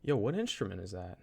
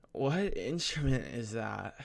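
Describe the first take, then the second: First: Said in the usual way. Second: Put-on slow, drawn-out girl's voice; imitating a nervous girl. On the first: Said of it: "and I just say". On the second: Student imitating a girl asking about the instrument, nervous and slow. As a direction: draw the question out as an awkward imitation. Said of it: "trying to accurately depict what happened".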